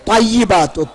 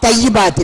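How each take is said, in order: First: The word begins with a heavy, emphatic t sound. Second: The word begins with a light, plain t sound. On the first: The speaker calls it right. "இவ்விடத்தில் த்வையிபாத்து" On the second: The speaker calls it wrong. "தா தையிபாத் இல்லை"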